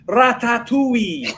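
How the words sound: It is said in a Welsh accent.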